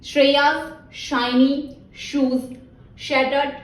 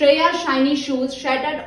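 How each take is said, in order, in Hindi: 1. यह वाक्यांश सामान्य गति से कहा गया है। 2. यह वाक्यांश थोड़ा तेज़ कहा गया है। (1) "फर्स्ट टाइम आपने नॉर्मल स्पीड में टंग ट्विस्टर का रिपीट करना है" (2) "we will increase our speed a little bit"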